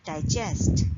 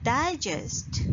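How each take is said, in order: First: "digest" as di-JEST; stress on second syllable. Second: "Digest" as DYE-jest, falling after the start; stress on first syllable. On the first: Teacher showing shifted stress, "digest" stressed last. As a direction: lean on the end of "digest". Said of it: "stress on the second syllable of the same word". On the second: Teacher naming the published collection, "Digest" stressed first. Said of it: "if we put the stress on the second syllable". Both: Shown as a demonstration.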